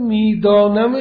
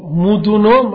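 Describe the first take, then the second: First: It is said with a standard Persian pronunciation. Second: It is said with a Mashhadi dialect pronunciation. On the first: "همون میدانم شماست" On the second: "مشهدیه میگه مدونم"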